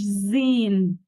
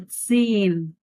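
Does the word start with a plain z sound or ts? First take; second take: plain z; ts. First: The word starts with a plain z sound. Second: The word starts with a ts sound. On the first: The speaker calls it wrong. "مش زين غلط" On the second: The speaker calls it right. "سين مش زين"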